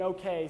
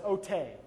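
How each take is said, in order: First: Said in the usual way. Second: "ote" with a T in place of the K; toddler pronunciation. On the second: Retold or imitated. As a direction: imitate a child saying okay as "ote", oh-TAY. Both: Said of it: "cannot yet form the K".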